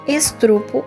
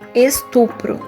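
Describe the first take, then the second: First: The r sound comes in the second syllable. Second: The r sound comes in the third syllable. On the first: The speaker calls it wrong. "exemplos de cacoépia" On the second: The speaker calls it right. "em vez de"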